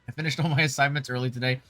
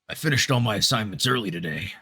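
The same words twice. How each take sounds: First: It is read in the speaker's normal voice. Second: It is said in a grizzly old Yenkin voice.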